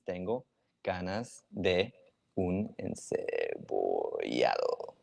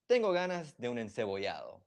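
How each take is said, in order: First: Slow, word by word, as if dictating; slow dictation. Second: Said in the usual way. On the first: Shown as a demonstration. Teacher writing the phrase in chat for viewers, slow dictation. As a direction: spell out "Tengo ganas de un encebollado" slowly while typing it. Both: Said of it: "I'm gonna write the sentence".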